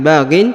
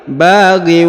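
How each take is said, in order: First: The word ends with a clear n sound. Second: The final n merges into a w sound. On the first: The speaker calls it wrong. "bukan lagi baghin" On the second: The speaker calls it right. "tapi baghiw"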